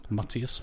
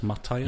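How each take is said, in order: First: "Matias" said ma-TEE-as; ee pronunciation. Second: "Matias" said ma-TIE-as; eye pronunciation. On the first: Co-host unsure of the player's name, "Matias" as ma-TEE-as. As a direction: try "Matias" with a middle ee. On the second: Co-host unsure of the player's name, "Matias" as ma-TIE-as. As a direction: try "Matias" with a middle eye sound. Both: Shown as a demonstration. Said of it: "your pronunciation of player".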